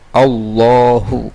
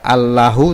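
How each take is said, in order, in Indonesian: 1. Huruf L-nya tebal dan berat, bersifat tebal. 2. Huruf L-nya tipis dan ringan, tidak tebal. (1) "dibaca tafkhim" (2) "tidak Allahu"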